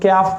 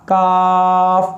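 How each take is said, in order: First: A y-glide follows the k sound. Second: The k goes straight into the vowel. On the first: The speaker calls it wrong. "लोग क्याफ पढ़ देते हैं, अरबी में क्याफ नहीं" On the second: The speaker calls it right. "इसको सीधा पढ़ना है का"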